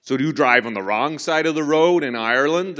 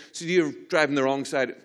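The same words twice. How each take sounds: First: Loud American state trooper accent. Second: Said in the usual way. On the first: Shown as a demonstration. Trooper questioning Irish driver about the road, loud American accent. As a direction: put on a big American cop accent. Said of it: "Should do an American accent. Let me get it". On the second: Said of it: "Should do an American accent".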